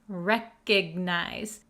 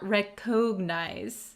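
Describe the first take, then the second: First: The middle vowel is reduced and weak. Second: The middle vowel is a full 'o' sound. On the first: The speaker calls it right. "It does have an O here, but we're going to pronounce it recognize" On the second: The speaker calls it wrong. "not recognize"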